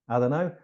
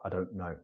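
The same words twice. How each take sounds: First: The words are squeezed into a heavier contraction. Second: The words are only lightly contracted.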